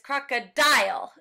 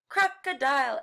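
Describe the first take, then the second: First: The stress is on the last syllable. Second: The stress is on the first syllable. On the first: The speaker calls it wrong. "It's that dial. You don't want to emphasize the end of the word like that" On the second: The speaker calls it right. "It's not crocodile"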